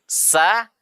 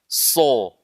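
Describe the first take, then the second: First: The consonant is light, with the mouth open. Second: The consonant is heavy, with a rounded vowel. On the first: The speaker calls it right. "sifatnya sin dibaca dengan tipis, sa terbuka mulut" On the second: The speaker calls it wrong. "tapi kita baca dengan tebal mulut"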